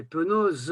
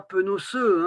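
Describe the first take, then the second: First: «penose» avec un Z doux; la bonne forme, tombante; prononciation correcte. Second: «penoceux» dit avec un S dur; la forme erronée, un peu appuyée; prononciation fautive. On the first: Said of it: "c'est penose". (prononciation juste) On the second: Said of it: "c'est pas penoceux, hein, c'est penose". (mauvaise prononciation) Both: Shown as a demonstration.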